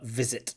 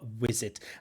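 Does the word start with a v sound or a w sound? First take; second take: v sound; w sound. First: The first sound is a v sound. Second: The first sound is a w sound. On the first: The speaker calls it right. "But v, v, visit" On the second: The speaker calls it wrong. "they pronounce their v as a w"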